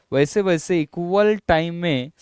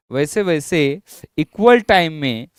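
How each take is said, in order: Both takes have the same delivery.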